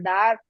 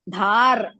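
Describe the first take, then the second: First: The first consonant is plain, without breath. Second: The first consonant is followed by breath. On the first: The speaker calls it wrong. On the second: The speaker calls it right.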